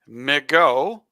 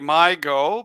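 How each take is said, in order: First: The first syllable sounds like "mih". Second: The first syllable sounds like "my". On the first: The name blends Michigan and go. "because of Michigan and go" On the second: The name follows how the letters look. "because that's my where my eyes go"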